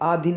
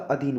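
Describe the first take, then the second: First: The first vowel is long, aa. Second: The first vowel is short, a. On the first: The speaker calls it wrong. "भाई आधीन नहीं होता" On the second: The speaker calls it right. "अधीन होता है"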